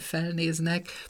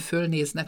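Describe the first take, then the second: First: The first vowel is said with spread lips. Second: The first vowel is said with rounded lips. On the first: It is the regional dialect form. "hanem felnéznek" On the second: It is the standard form. "nem fölnéznek"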